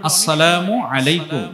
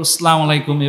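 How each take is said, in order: First: The greeting is pronounced clearly and with careful articulation. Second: The greeting is pronounced in a distorted, careless way. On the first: The speaker calls it right. "এই যে শুদ্ধ উচ্চারণটা" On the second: The speaker calls it wrong. "এভাবে একটু বিকৃত করে সালাম দেই"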